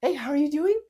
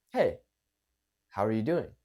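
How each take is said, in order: First: Very high greeting rising into a question; hurried, not calmed down. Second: Low, relaxed greeting with a pause after "Hey"; calm it down, let "doing" fall; calm, slowed down. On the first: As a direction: pitch it way up, rushing to the question. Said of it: "and slow it down". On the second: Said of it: "Calming it down". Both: Shown as a demonstration.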